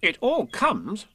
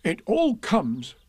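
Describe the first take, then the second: First: Slow, high-pitched stern rabbit. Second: Slow, high-pitched cross bear. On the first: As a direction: retort sternly, pitch rising at the end. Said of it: "said Rabbit sternly". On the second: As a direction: grumble crossly, pitch falling at the end. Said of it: "said Pooh crossly". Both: A narrator's reading.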